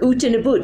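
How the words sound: It is said in a Minnesota accent.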